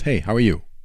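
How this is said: The greeting sounds forceful and assertive.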